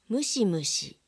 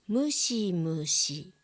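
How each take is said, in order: First: The word is said at natural speed. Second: The word is said slowly and carefully. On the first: "ナチュラルスピードで読みます" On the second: "まず単語をゆっくり読みます"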